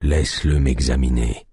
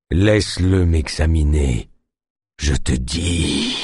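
First: Low, weak command; weak sick chief. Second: Slow, low, fading into a groan; ending in a moan. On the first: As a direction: order it feebly from bed. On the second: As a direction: push the words out through pain. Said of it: "s'acheva en une longue plainte". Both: A narrator's reading.

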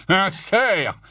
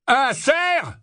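First: Scornful growl, raised in pitch. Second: High, incredulous roar. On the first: Barman mocking the stag sighting, growling. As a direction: growl it back with contempt. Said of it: "gronda le barman". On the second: Barman scorning the Death Eater's claim, roaring. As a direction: roar it back as a question. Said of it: "rugit le barman". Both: A narrator's reading.

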